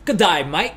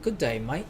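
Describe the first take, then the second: First: A hammed-up Australian "Good day, mate", the "Good" rising; Australian accent. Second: A lighter, softer Australian "Good day, mate", the "Good" rising; Australian accent. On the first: To the chat, showing how heavy Aussie sounds, hammed-up Australian accent. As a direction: play the Aussie bloke, lay the accent on thick. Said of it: "In Australia, it's, like, a lot heavier". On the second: Retrying the Aussie greeting for viewers, softer Australian accent. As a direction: try the Aussie greeting again, quieter. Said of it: "Oh, that was good". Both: Shown as a demonstration.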